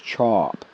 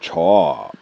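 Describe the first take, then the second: First: The word is said with its ordinary tone. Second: The word's tone is stretched and exaggerated. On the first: The speaker likes it. "Your like is chop" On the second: The speaker really likes it. "if you really like it, you go chop"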